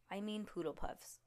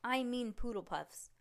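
First: Hushed aside, unvoiced; whispered correction. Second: Said in the usual way. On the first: Shown as a demonstration. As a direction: whisper it under the breath.

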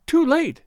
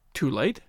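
First: High, loud acted moan; high-pitched cry of anguish. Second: Puzzled question, rising at the end; mild surprise, voice lifting on the last word; surprised echo. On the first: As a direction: wail it out in despair. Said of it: "and then moaned". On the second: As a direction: echo it back, taken aback. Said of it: "he echoed in surprise". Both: A narrator's reading.

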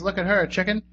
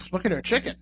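First: HER lifted, CHICKEN set apart as a name; slight rise on HER, then CHICKEN as direct address; chicken as addressee. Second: HER CHICKEN run together as one phrase; quicker, softer, no break before CHICKEN; chicken as her possession. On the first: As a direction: say "look at her" to someone called CHICKEN. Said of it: "I don't know if that means". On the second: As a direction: say HER CHICKEN as the thing to look at. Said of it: "or that means". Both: Shown as a demonstration.

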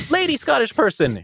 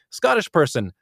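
First: High-pitched lady character voice; lady Scottish character. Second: Lightly voiced placeholder for a Scottish character; slightly raised, lightly sketched character line; Scottish character stand-in. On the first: Narrator showing a switch between characters, high lady Scottish voice. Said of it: "going from Scottish person ... to". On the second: Narrator showing a switch between characters, lightly voiced Scottish character. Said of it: "you will be going from Scottish person". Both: Shown as a demonstration.

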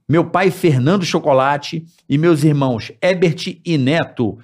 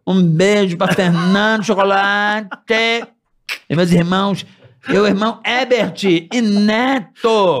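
First: Said in the usual way. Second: Slow, drawn-out talk show host voice; lightly imitating a veteran TV host; Jô Soares voice. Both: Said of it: "com a voz do Jô".

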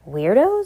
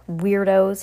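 First: Loud, steeply rising echo; puzzled question. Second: Mild, storyteller's shout; shouted insult. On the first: Sarah puzzled by the boy's insult, rising question. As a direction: repeat it as a question, sliding up high. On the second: Boy running from the witches, mild shout. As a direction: toss the insult, mildly raised. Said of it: "he shouted as he ran". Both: A narrator's reading.

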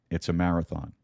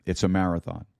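The two takes are said the same way.

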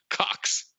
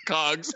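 First: "Cocks." with a crisp voiceless ks ending; corrected "Cocks". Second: "Cogs." with a voiced g and buzzing z at the end; mistaken "Cogs". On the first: Retold or imitated. Retelling Bateman correcting the word, "Cocks." ending in a hard voiceless ks. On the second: Retelling Sudeikis getting the word wrong, "Cogs." ending in voiced gz. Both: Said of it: "And Bateman corrects".

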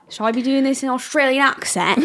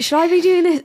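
First: Put-on tentative try at an Australian accent; attempted Australian accent. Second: Said in the usual way. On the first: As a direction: ask it in a rough Australian twang.

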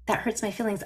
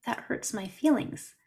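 First: Said in the usual way. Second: Sweet sad little voice. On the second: Retold or imitated. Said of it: "sweet, sad little voice".

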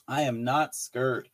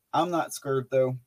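First: Slow I am not scared with not leaned on; firm slow denial, not stressed. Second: Said in the usual way. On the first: Shown as a demonstration. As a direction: land hard on not, slowly. Repeats it with emphasis.

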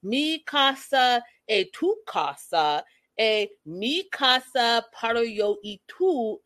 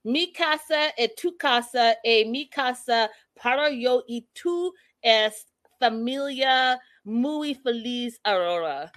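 First: "Mi casa e tu casa" said very slowly with a rising "tu"; slow, hammed-up toast imitation; mocking slow Spanish. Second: "Mi casa e tu casa" spelled out word by word, slow, in halting learner Spanish; hammed-up slow Spanish toast; imitating Karen's slow toast. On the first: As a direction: drawl each Spanish word slowly to tease the slow toast. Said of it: "unnecessary to speak slow". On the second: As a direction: mimic Karen reading a toast slowly in broken Spanish. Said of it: "She says".

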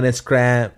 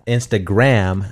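First: Said in the usual way. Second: "Instagram" slowly drawn out, lower; careful correction. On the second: Real, not acted. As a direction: enunciate "Instagram" slowly, syllable by syllable. Repeats the slipped word carefully.

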